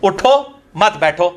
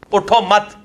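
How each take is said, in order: First: उठो alone, a beat, then मत बैठो together; pause after उठो. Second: उठो मत run together, then stop; group मत with उठो, breaking off right after it; pause after मत. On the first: Showing the phrase's other meaning, pause after उठो. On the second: Showing how one phrase gets two meanings, pause after मत. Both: Shown as a demonstration. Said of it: "अब दो मुख्तलिफ बन".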